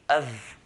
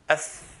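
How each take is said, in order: First: The consonant is a voiced V sound. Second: The consonant is a voiceless F sound. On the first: The speaker calls it wrong. "it will sound like a V" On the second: The speaker calls it right. "touching the the inside of the lower lip"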